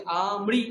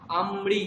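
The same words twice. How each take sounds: First: "আমৃ" as long open aa, then mri; joined mri. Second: "আমৃ" as am-mri, held m; split m. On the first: Teacher shows student slight difference, mri joined. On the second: Teacher shows student slight difference, m split. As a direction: close first syllable of "আমৃ" on m, then mri. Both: Shown as a demonstration. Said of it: "একটু slight পার্থক্য এখানে".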